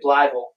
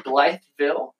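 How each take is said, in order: First: It is said in a rural Arkansas accent. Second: It is said in a standard accent.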